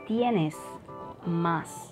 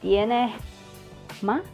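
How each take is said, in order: First: The s at the end of tienes is clear. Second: The s at the end of tienes sounds like h. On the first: "I don't say tienes más" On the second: "the Spanish J sound"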